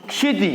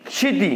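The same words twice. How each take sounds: The two takes are said the same way.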